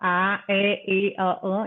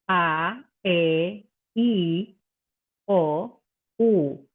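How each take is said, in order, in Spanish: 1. Las vocales son estiradas, con la boca ancha. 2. Las vocales son redondeadas, con la boca alta. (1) "no estirada, ¿sí? No" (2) "vertical y no horizontal"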